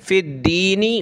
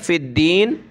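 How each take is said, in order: First: The word ends with a final short vowel. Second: The word ends on the bare consonant.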